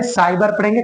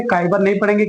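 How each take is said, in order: First: साइबर said with an s sound, not k; teacher shows साइबर starting with a clear s sound; soft C in साइबर. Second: काइबर said with a hard k sound; teacher shows the wrong reading काइबर with a k. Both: Shown as a demonstration.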